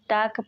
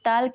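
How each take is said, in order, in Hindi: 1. k से पहले कोई l ध्वनि सुनाई नहीं देती। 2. k से पहले l ध्वनि सुनाई देती है। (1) "टाक पढ़ते हैं" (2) "इसको टाल्क नहीं"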